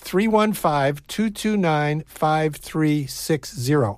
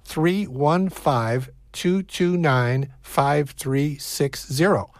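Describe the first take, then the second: First: The number is said fast. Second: The number is said slowly.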